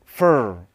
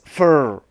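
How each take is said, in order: The two takes are said the same way.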